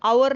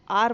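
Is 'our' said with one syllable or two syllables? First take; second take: two syllables; one syllable. First: The word is said with two syllables, like 'ower'. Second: The word is said with one syllable, like 'are'. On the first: The speaker calls it wrong. "इथं आवर नाही म्हणायचं" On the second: The speaker calls it right. "आर म्हणायचं"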